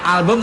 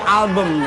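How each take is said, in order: First: It is said with a plain Indonesian pronunciation. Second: It is said with a posh British accent. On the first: The speaker calls it wrong. "bukan album" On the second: The speaker calls it right. "British saya. Inggris keraton banget"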